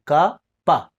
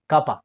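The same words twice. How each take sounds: First: KA and PA said separately; syllable by syllable. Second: Said in the usual way. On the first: Shown as a demonstration. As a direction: break it into KA, then PA, with a pause between. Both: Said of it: "ka khurang, pa khurang".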